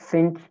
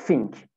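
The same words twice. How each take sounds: First: "think" with TH, tongue between the teeth; standard TH. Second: "think" said as "fink". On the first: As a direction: say "think" with a proper TH. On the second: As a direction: swap the TH in "think" for F. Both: Shown as a demonstration. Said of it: "F ile değiştirebilirsiniz".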